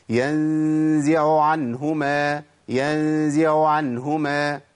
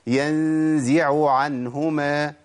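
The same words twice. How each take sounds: First: "ينزع عنهما" بعين أولى باهتة تكاد تختفي; dropped ain. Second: "ينزع عنهما" بعينين واضحتين مقروءتين ببطء; clear ain. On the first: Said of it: "اسمعوا كده الخطأ". (عين ساقطة باهتة) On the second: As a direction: pronounce both ains of ينزع عنهما clearly. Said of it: "اسمعوا الصح". (العين واضحة في الكلمتين) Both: Shown as a demonstration.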